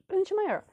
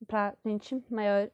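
First: "pra gente maior" jumps much higher; high emphatic. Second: "Pra gente maior" drawn out very slowly. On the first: She repeats for viewers: the ride for bigger people, much higher. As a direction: squeak it up to stress it. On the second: She tells viewers it was the ride for bigger people, slowly. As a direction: stretch each word out. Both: Shown as a demonstration. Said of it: "repeated phrase".

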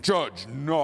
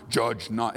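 First: Mocking voice. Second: Said in the usual way. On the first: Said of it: "they'll change their voice most likely". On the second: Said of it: "they'll change their voice".

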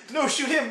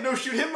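First: First frantic plea. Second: Second plea, rising. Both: Retold or imitated. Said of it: "the classic no shoot him moment".

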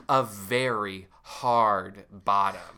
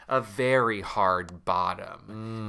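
First: Slow low Justin voice. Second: Slow low repeat. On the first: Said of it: "he says out loud". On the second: Repeating Justin's line. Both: Acted.

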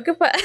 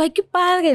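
First: High, strained fake cheer; polite approval going sour; forced smile. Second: Bright, much higher, happy gush; delighted at first. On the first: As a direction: say it while the smile slips. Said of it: "se te va cambiando la sonrisa de así a así". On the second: Retold or imitated. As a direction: sound genuinely pleased for them. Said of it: "se te va cambiando la sonrisa".

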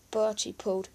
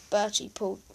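No difference in how they are said.

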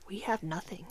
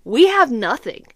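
First: Soft, low whispered disbelief; stunned whisper. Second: Slow, loud "We have nothing"; emphatic alarm. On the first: Mom realizes the baby's due soon, stunned whisper. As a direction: whisper it as if it just sank in. Stunned, no baby things ready. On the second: Mom stresses how unprepared they are, loud slow "We have nothing". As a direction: land "We have nothing" loudly, word by word. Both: Acted.

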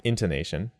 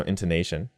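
First: "intonation" wrongly stressed on the first syllable IN. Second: "intonation" with NA stressed and a little longer. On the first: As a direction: punch IN at the start of "intonation", not NA. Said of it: "That int is in it". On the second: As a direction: lean on the third syllable NA in "intonation". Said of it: "ne is the stressed part". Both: Shown as a demonstration.

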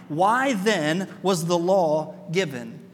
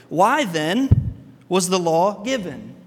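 First: Slow rhetorical question. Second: Slow and louder, each word weighed; slow rhetorical question as Paul. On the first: Shown as a demonstration. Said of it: "You can hear the pause in Paul's voice". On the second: Retold or imitated. Paul to the Galatians, slow louder rhetorical question. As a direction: ask it slowly to make them think. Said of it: "Paul stands there and he goes".

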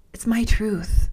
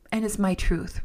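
First: Louder, punching "my"; emphatic. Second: Said in the usual way. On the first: Real, not acted. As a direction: land "It's my truth" firmly, stressing "my". Repeats phrase louder.

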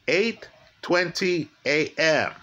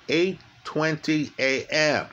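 Both takes have the same delivery.

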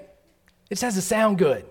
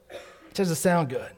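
First: Slow, with sound drawn out and stressed. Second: Said in the usual way. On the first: Shown as a demonstration. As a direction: lean hard on sound.

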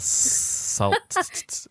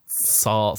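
First: Very high breathy whisper of Salt; high whispered squeak. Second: Said in the usual way. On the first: Pretend. Playful repeat.

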